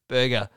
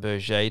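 First: The name is said with an English pronunciation. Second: The name is said with a French pronunciation. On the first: The speaker calls it right. "People would have called it Berger" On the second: The speaker calls it wrong. "which is a French pronunciation, which I think is actually incorrect"

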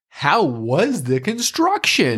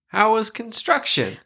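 First: It is said in an exaggerated, over-the-top way. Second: It is said in a restrained, plain way.

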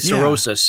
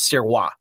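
First: The name is said with an anglicized pronunciation. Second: The name is said with French Canadian pronunciation. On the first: "I'm used to hearing cirrhosis" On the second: "That's the French Canadian way of saying it"

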